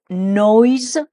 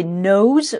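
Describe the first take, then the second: First: NOISE with a clear OY glide, noyz; mot ressemblant. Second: NOSE with an OH glide, nohz; mot ressemblant. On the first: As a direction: stretch the OY in NOISE. (« noise » bien distinct, avec le son « oï ») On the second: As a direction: say NOSE clearly with OH, no OY. (« nose » bien distinct, avec le son « o-ou ») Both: Shown as a demonstration. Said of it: "les deux mots qui se ressemblent".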